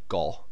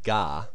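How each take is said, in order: First: It has a rounded British short 'o' vowel. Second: It has an open American 'ah' vowel. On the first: The speaker calls it right. "in British English you say go" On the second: The speaker calls it wrong. "he say like ga"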